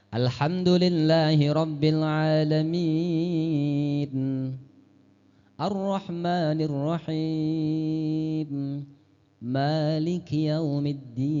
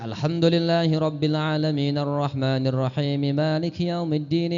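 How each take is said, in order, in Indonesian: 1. Ada jeda setelah setiap ayat. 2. Ayat-ayatnya bersambung tanpa berhenti. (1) "Rasul ayatan-ayatan. ... Per ayat" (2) "tidak disambung. Tidak ... Itu namanya sambungan"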